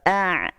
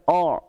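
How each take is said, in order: First: The vowel is thin and narrow, like a. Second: The vowel is broad and rounded, like o. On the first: The speaker calls it right. "Kalau A'" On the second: The speaker calls it wrong. "Bukan O"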